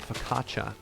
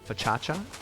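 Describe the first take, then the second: First: It begins with a 'fo-kah' sound. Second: It begins with a 'fa-cha' sound.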